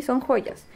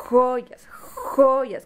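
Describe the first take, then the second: First: Said in the usual way. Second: "Joyas" with a long, forceful rasped j at the start; exaggerated initial fricative in "Joyas, joyas"; initial-sound emphasis. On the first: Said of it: "¿Cómo se llaman?". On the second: Shown as a demonstration. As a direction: hold the opening j of "Joyas" before the vowel. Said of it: "qué sonido escuchas?".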